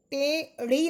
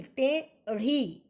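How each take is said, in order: First: टेढ़ी said as ʈeɖi, with a hard retroflex ड stop, slower; टेढ़ी with a flapless ड sound, the wrong way; wrong pronunciation. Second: टेढ़ी said as ʈeɽi, with a flapped ढ़, slow and drawn out; टेढ़ी, tongue flapped on ढ़, very slowly; correct pronunciation. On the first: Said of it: "टेढ़ी नहीं". (टेढ़ी को ड की तरह बोलना, गलत उच्चारण) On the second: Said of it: "टेढ़ी नहीं, टेढ़ी". (टेढ़ी में ढ़ का सही, धीमा उच्चारण) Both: Shown as a demonstration.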